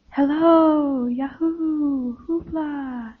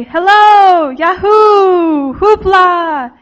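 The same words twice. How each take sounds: First: Soft echo fading away. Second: Loud, higher-pitched drawn-out calls; boys shouting. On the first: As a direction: repeat the calls like a distant, dying echo. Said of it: "it repeats back to them". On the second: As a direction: holler it out to raise an echo. Boys shouting to hear echo. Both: A narrator's reading.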